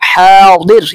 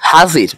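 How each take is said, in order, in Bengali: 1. এটি আরবি ধাঁচের d এর মতো উচ্চারণে বলা হয়। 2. এটি বাংলা ধাঁচের z এর মতো উচ্চারণে বলা হয়। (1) "আরবি উচ্চারণ হবে" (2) "বাংলার ক্ষেত্রে আমরা বলে থাকি"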